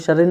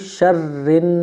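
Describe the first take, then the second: First: The r sound is short and single. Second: The r sound is held and doubled. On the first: The speaker calls it wrong. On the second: The speaker calls it right.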